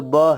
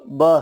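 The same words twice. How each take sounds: First: ब said as a short b with a light vowel; letter sound b. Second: ब said again as a short b with a light vowel; letter sound b. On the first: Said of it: "इसका तलफ़ुज़ यानी इसका उच्चारण". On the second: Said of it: "इसका pronunciation जो है तो". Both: Shown as a demonstration. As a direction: clip ब short, lips together.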